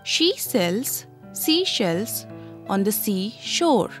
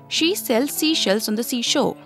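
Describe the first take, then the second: First: The sentence is said at a normal speed. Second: The sentence is said at a fast speed. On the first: "listen carefully" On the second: "now you have to say it fast"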